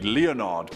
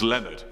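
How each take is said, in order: First: The name uses an old-fashioned pronunciation. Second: The name uses an ordinary everyday pronunciation. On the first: "The antiquitous pronunciation of course would be" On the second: "but come on, it's"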